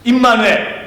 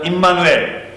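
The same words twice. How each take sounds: First: It is said more loudly. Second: It is said at normal volume.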